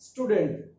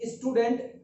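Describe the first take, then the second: First: The word starts directly with the s sound. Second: An extra vowel sound comes before the s. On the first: The speaker calls it right. "आपको से का sound लगाना है, ये अलग से ई नहीं लगाना है" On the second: The speaker calls it wrong. "स्टूडेंट नहीं बोलना है"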